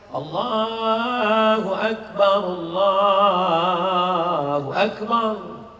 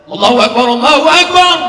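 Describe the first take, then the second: First: It is said weakly and slowly. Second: It is said loudly and forcefully.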